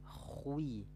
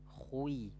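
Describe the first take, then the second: The two takes are said the same way.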